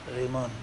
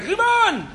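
First: The word is said very quietly. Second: The word is shouted loudly. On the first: "he'd say in a very quiet voice" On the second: "not like"

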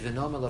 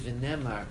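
First: The vowel after the n is an o sound. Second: The vowel after the n is an e sound. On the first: We will say it. The speaker calls it wrong. "we don't say V'nomar" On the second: We said it in the past. The speaker calls it right. "but rather we say V'nemar"

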